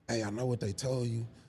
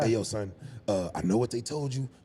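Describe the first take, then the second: First: It is said in a plain, neutral voice. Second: It is said imitating the man's own voice.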